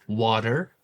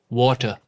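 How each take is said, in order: First: The T sound is soft and less distinct. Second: The T sound is sharp and distinct.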